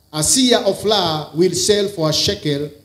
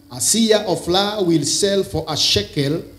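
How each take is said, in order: No difference in how they are said.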